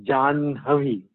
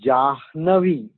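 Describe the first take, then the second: First: Janhavi with the na before the breathy ha; correct pronunciation. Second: Jahnavi with the h before the n, as spelled; wrong spelling-pronunciation. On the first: Teacher correcting students, Janhavi said the right way. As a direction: say Janhavi, nasal first, then the ha. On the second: Teacher showing students the wrong way, Jahnavi as spelled. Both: Shown as a demonstration.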